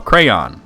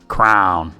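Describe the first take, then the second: First: The word is said as cray-on, two syllables. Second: The word is said like crown, one syllable. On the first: This is how the speaker says it. The speaker calls it right. "No, crayon. There's a Y in there" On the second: This is how some other people say it. The speaker calls it wrong. "Brandon says crown"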